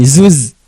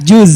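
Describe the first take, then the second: First: The word begins and ends with a z sound. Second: The word begins with j and ends with z. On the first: The speaker calls it wrong. "bukan zuz" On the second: The speaker calls it right. "Yang pertama J ... terakhirnya Z"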